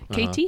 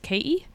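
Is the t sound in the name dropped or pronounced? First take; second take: pronounced; dropped. First: The t sound in the middle is pronounced. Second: The t sound in the middle is dropped. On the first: "for Americans, it's Katie" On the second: "the way I would have pronounced it growing up was K-E"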